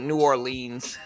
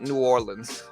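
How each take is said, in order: First: The name is said the way visitors say it. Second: The name is said the way locals say it. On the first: The speaker is from out of town. The speaker calls it wrong. "nobody pronounces it New Orleans uh, unless you're from out of town" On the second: The speaker is from the area. The speaker calls it right. "Most natives pronounce it New Orleans"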